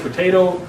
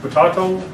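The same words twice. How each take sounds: First: Potato is said the local, American way. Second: Potato is said the English way.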